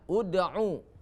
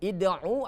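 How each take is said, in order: First: The word begins with a 'u' vowel. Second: The word begins with an 'i' vowel. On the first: The speaker calls it right. "hamzah itu diberi baris dhammah" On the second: The speaker calls it wrong. "Bukan id'u"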